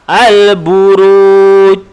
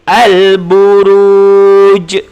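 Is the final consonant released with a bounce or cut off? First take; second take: cut off; bounced. First: The final j is cut off without any bounce. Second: The final j is released with an echoing bounce. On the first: The speaker calls it wrong. "itu salah sebab jim tidak dilantunkan" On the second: The speaker calls it right. "ini bacaannya betul"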